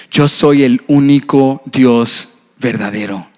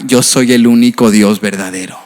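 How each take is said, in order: First: Slow, weighty declaration with stress on Yo; solemn proclamation. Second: Said in the usual way. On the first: Shown as a demonstration. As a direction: pronounce "Yo soy el único Dios verdadero" slowly as a decree. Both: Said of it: "repeated as proclamation".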